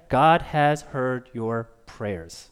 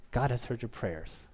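First: Very slow, measured prophetic message; solemn, spaced-out announcement; slow pronouncement. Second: Soft, low reflective line; much softer, lowered voice; hushed repetition. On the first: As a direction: deliver each word slowly and with weight. Prophet's answer, then repeated softly. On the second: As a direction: let it sink in quietly. Preacher repeats the line softly. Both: Acted.

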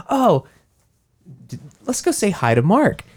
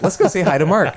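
First: Higher, bright mock suggestion; mock cheerful teens. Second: Higher, laughing mock voice; echoing the line. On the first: Siblings deciding to visit Mark, higher mock cheerful voice. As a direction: play the siblings chirping. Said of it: "They're like". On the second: Brain replaying the line on cue, higher laughing voice. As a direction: quote it playfully. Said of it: "my brain is just like".

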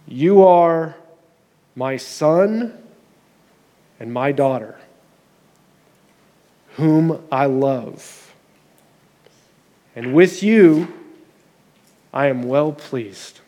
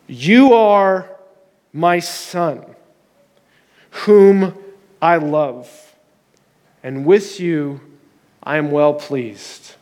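First: Tender blessing. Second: Solemn, measured pronouncement of the heavenly voice, ending slow; proclaiming, slow at the end. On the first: Acted. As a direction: hush it down and give it to each one personally. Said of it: "close your eyes with me for a moment". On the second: A narrator's reading. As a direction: let each phrase land like a voice from above. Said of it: "And a voice came from heaven".

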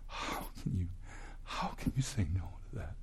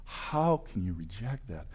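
First: Hushed, breathy whisper, slowing down. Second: Said in the usual way. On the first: Real, not acted. Preacher pleads with unbelievers in a hushed whisper.

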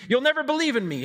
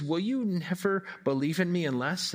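First: NEVER stressed high and loud, statement falling at the end; flat statement. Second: "Will you never believe in me unless?" asked with weight on "you", rising to the end; questioning tune. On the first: Preacher showing the wrong reading, falling flat statement. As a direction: read "You'll never believe in me" as a firm statement with a falling end. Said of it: "It doesn't read". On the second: Preacher showing the right reading, a rising question. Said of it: "It reads". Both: Shown as a demonstration.

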